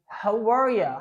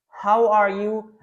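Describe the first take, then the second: First: The last word is reduced to 'ya'. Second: The last word is a full 'you'.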